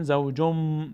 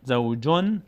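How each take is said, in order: First: زوجم ending in a long hummed m; n turned to m. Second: زوجن with a clear final n; unchanged n reading. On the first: Teacher shows what we say instead, زوجم with held m. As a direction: close the lips and hold the m of زوجم. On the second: Teacher shows the written form, زوجن with plain n. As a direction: keep the n ending of زوجن. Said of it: "به جای تنوین". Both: Shown as a demonstration.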